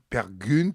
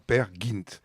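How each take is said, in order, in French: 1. Le deuxième mot a une voyelle arrondie de type u. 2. Le deuxième mot a une voyelle non arrondie de type i. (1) "normalement, c'est la prononciation française" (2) "le fait interpréter sous la forme Père Gint"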